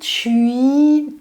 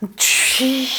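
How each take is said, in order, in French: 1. Le mot se dit avec une voix normale. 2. Le mot est soufflé fort, en sifflant entre les dents. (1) "ça se dit tui" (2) "quand on le fait dans le souffle, ça va être tui, fort pour que ça siffle entre les dents"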